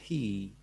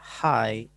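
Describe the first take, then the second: First: The vowel sounds like 'ee'. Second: The vowel sounds like 'eye'. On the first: The speaker calls it wrong. "enggak hi" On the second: The speaker calls it right. "jadi bacanya hi"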